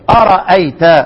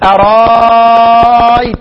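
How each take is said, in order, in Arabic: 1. الهمزة الثانية تُنطق كاملة. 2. الهمزة الثانية تصير ألفًا ممدودة. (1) "بإثبات الهمزة" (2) "يزيد"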